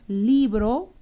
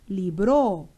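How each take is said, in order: First: The stress is on the first syllable. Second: The stress is on the last syllable. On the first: "Puedo tener la oración libro, una batalla" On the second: "pero también podría ser libró una batalla"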